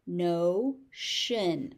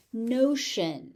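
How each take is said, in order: First: "Notion" as no, pause, shun; syllable by syllable. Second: Said in the usual way. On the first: Shown as a demonstration. Teacher sounding out "Notion" for learners, syllable by syllable. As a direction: split "Notion" into two beats.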